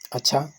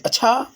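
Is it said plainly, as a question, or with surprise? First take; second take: plainly; question. First: It is said flatly as a plain statement. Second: It is said with a strong questioning tune.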